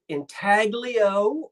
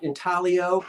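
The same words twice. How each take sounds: First: The G is pronounced. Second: The G is silent.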